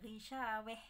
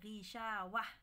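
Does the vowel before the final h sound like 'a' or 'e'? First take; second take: e; a. First: The last vowel is tilted toward an e sound. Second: The last vowel is a plain open a sound. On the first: The reciter stops on this word. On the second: The reciter continues without stopping.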